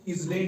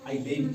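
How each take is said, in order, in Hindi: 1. l से पहले z की आवाज़ सुनाई देती है। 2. l से पहले s या z की आवाज़ सुनाई नहीं देती। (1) "इसको इजलैंड नहीं पढ़ना है" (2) "बल्कि आइलैंड पढ़ना है"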